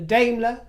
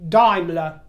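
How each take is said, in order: First: Daimler is pronounced the English way. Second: Daimler is pronounced the German way. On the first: "rather than a Daimler" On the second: "I do on this occasion, so I will refer to that car as a Daimler"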